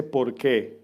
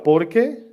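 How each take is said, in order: First: "por qué" as one word, stress on por, falling; statement porque. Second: "por qué" as a question, rising up on qué. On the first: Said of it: "Está hablando de una afirmación". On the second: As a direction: ask "por qué", stress and lift qué at the end. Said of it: "Si ven el acento en qué y separada, es una pregunta". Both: Shown as a demonstration.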